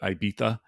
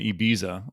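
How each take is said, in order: First: Ibiza is said with a Spanish pronunciation. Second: Ibiza is said with an American pronunciation. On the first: "What is it" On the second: "that's how we say it in America"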